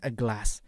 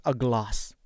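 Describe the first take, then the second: First: A glass with a flat American a; American accent. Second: A glass with a long open British a, slow; British accent. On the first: Teacher contrasts for students, American accent. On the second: Teacher contrasts for students, British accent. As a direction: slowly say glass as glahss, British. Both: Shown as a demonstration.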